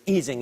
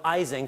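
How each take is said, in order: First: The name is said the German way. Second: The name is said the American way. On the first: This is how it is said in Germany. "the way it's pronounced is, is, is Ising in Germany" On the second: This is how it is said in the United States. "people called him Ising for the rest of his life"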